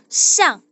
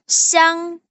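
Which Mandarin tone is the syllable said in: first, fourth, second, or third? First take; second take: fourth; first. First: The syllable is said in the fourth tone. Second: The syllable is said in the first tone. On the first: "Nada keempat itu siang" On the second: "Itu siang"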